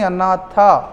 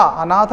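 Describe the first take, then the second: First: अनाथा with long final aa; corrected अनाथा, final vowel stretched; correct form. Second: Said in the usual way. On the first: Shown as a demonstration. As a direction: end अनाथा on a clear falling long aa. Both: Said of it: "अनाथ नहीं".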